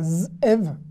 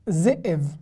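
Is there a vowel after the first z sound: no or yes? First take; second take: no; yes. First: A bare z sound comes before the syllable ev. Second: A short vowel follows z before the syllable ev. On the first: The speaker calls it wrong. "ça va pas" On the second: The speaker calls it right. "je suis obligé de dire ze"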